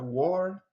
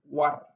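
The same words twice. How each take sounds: First: It is said with English pronunciation. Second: It is said with non-English pronunciation. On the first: The speaker calls it wrong. "it looked just like the English war. It's not a war" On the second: The speaker calls it right. "it's war"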